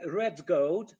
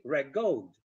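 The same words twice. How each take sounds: First: "red gold" slow, with a clear d; two careful separate words, "red gold"; loud, slow "red gold", d fully sounded; slowly. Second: "red gold" said as "reg gold"; "red gold" run together, lower, g for d; assimilated d. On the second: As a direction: turn the d of "red" into g. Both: Shown as a demonstration.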